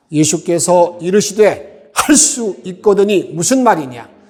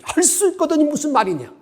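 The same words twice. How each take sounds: First: Loud, steady congregational reading; read aloud together. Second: Much higher, a sharp shouted challenge; shouted rebuke. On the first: Shown as a demonstration. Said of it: "큰 목소리로 함께 읽도록 하겠습니다". (회중과 함께 크게 또박또박 읽듯이) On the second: Retold or imitated. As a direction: yell it at him like Jesus rebuking. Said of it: "완전 소리를 지르는 거죠". (훨씬 높은 소리로 호통치듯 외치며)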